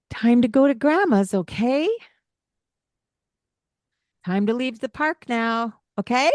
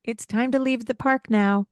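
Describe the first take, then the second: First: Rising okay turns it into a question. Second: It's time to leave the park now said flat and falling; firm statement. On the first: Parent wrongly asking okay?, rising at the end. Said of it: "Don't put that okay on there". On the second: Parent stating leaving time firmly, falling at the end. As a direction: state it, no rise. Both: Shown as a demonstration.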